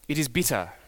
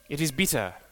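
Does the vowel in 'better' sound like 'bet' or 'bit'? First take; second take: bit; bit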